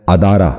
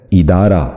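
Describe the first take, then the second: First: ادارہ wrongly opened with "a": adaara; mispronunciation. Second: ادارہ opening on a short "i": idaara; correct pronunciation. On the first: Teacher showing viewers the common error, ادارہ mispronounced as adaara. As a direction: say ادارہ with "a" instead of "i" at the start. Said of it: "جو غلط تلفظ ہے". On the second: Teacher modelling for viewers the correct ادارہ, idaara. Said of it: "درست تلفظ ہے". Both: Shown as a demonstration.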